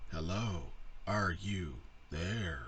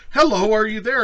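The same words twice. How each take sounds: First: Lower, slow robotic monotone; slow, low mock computer reply. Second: High, loud eager hello; hammed-up high, loud woman's voice; mock woman typing. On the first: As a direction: drone it like an old speech chip. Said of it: "And it'd be like". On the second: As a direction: chirp it like a hopeful chatter. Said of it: "she'd be like".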